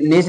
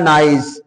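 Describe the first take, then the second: First: The vowel sounds like 'ee'. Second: The vowel sounds like 'eye'. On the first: The speaker calls it wrong. "ऐसे उल्टा पुल्टा पढ़ते" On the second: The speaker calls it right. "लिखा है नाइस"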